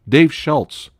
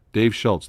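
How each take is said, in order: First: Name blurted higher and louder; excited recall. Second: Said in the usual way. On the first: Real, not acted. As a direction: pounce on the name as it comes back. Chat gives the name.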